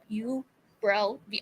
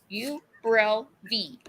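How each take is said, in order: First: The word is said at normal speed. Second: The word is said slowly and carefully. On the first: The speaker calls it wrong. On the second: The speaker calls it right.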